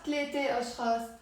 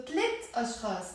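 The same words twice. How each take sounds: First: ثلاثة أشخاص said fast with the a sound kept on ثلاثة; demonstrating the error; wrong form. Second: ثلاث أشخاص said briskly, no final a on ثلاث; right way to say it; correct form. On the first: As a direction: keep the a on ثلاثة to show the mistake. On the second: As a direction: clip ثلاث short before أشخاص. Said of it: "not ثلاثة أشخاص". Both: Shown as a demonstration.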